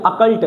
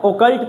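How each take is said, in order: First: अकल्ट said with a short a at the start; correct pronunciation. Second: ओकल्ट read with an o sound as spelt; wrong spelling pronunciation. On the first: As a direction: open अकल्ट on a short A, not O. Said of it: "इसको बोलते हैं अकल्ट". (अकल्ट, शुरू में छोटा अ) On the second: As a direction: say ओकल्ट the way it looks, with O. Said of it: "लेकिन इसको ओकल्ट नहीं पढ़ते". (ओकल्ट, ओ वाली आवाज़ के साथ) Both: Shown as a demonstration.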